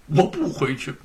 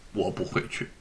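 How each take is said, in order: First: Said in the usual way. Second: Muttered low and soft; a hurt, withdrawn no; softly refusing to go home; quiet sulking refusal. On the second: A narrator's reading.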